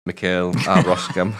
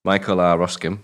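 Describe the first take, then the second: First: Mikhail said as mi-KAIL, not the English MY-kul; corrected Mikhail. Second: Michael said as MY-kul, English style; Michael as the plain English name, MY-kul. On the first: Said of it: "Isn't it, uh, Mikhail?". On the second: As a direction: read "Michael" the English way, MY-kul, then Roskam. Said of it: "he is a pronunciation for you". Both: Shown as a demonstration.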